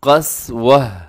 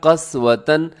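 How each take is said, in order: First: The word ends with an 'h' sound. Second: The word ends with 'tan'. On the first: This is the form used when stopping on the word. "तो कैसे वक़फ़ होगा" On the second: This is how the word is written. "यहाँ लिखा हुआ है कस्वतन"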